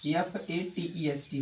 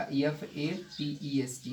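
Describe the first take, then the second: First: Said in the usual way. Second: "F A T E S T" spelled slowly, letter by letter, softer; slow spelling. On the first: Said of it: "F A T E S T होगा". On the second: Shown as a demonstration. Teacher dictating the spelling to students, slow and deliberate. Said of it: "fattest का".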